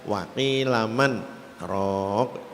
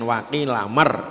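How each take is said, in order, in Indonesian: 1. Hentian singkat membuat n tetap terpisah dari r. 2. Bunyi n langsung menyatu ke dalam r. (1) "tapi dibaca waqilaman rok" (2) "Maksudnya kan waqilamar"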